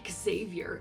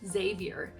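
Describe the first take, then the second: First: The name begins with an 'ex' sound. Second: The name begins with a 'z' sound. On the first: The speaker calls it wrong. "it's not Xavier" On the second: The speaker calls it right. "it's just Xavier"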